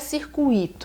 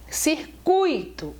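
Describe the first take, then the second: First: The stress falls on the i sound. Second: The stress falls on the u sound. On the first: The speaker calls it wrong. "teria o i tônico" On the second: The speaker calls it right. "o U é tônico"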